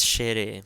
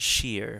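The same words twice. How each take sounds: First: "shere" in two syllables, SHEH-reh; louder, correct it to "shere" with final eh voiced; every syllable pronounced. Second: "sheer" as one English syllable; English pronunciation. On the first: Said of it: "we pronounce every syllable". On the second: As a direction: say "sheer" like the English word, no final vowel. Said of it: "wouldn't be like English". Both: Shown as a demonstration.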